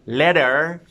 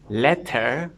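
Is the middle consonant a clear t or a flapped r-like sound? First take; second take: flap; clear t. First: The middle consonant is a quick r-like flap. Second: The middle consonant is a clear t sound. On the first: "if I change t for r" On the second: "if I change t for r"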